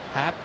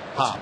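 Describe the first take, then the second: First: The vowel sounds like the one in 'hat'. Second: The vowel sounds like the one in 'hot'. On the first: "Especially when the guy pronounce, spells his name like it should be Hop" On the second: "he pronounces it like Hopalong Cassidy. Hop"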